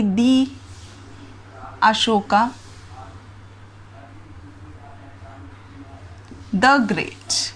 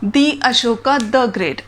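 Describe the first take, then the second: First: दी said long like thee before Ashoka. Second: दी long and clear, then the great with a short द; slow, set दी against द; thee versus the contrast. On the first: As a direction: stretch the vowel in दी, then a short the before great. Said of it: "आपने एक statement से सुनी होगी". (दी को लंबा 'दी' और the को छोटा 'द' बोलना) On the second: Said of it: "एक बार मैं दी बोल रही हूँ और एक बार मैं द बोल रही हूँ". (धीरे से दी और द का फर्क दिखाना) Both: Shown as a demonstration.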